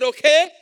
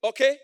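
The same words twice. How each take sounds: First: Much louder, higher okay; loud repeat. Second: Said in the usual way. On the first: Real, not acted. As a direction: shout it back at them. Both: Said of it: "I said".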